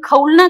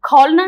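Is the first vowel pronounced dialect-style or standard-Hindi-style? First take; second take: dialect; standard-Hindi. First: The first vowel has the shifted dialect quality. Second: The first vowel has the standard Hindi quality. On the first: The speaker calls it right. "बल्कि खौलना कहा जाता है" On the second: The speaker calls it wrong. "खौलना नहीं"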